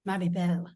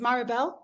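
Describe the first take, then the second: First: The name is said with a French pronunciation. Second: The name is said with an English pronunciation. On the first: "a little bit French" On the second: "number one is Maribel"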